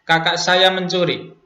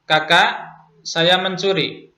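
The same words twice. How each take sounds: First: The words run together without a pause. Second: There is a pause after the first word. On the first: The speaker's older sibling is the one who stole. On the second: The speaker is the one who stole, addressing an older sibling. "Yang pertama adalah"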